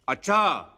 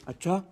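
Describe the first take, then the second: First: It sounds angry and loud. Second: It sounds shocked and surprised.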